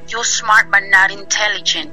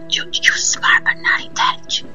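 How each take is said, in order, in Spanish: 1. Se dice más fuerte, con una voz más llena. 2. Se dice suave y despacio, como un susurro. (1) "ya después me lo dijo más fuerte" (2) "me lo decía muy, como muy despacio"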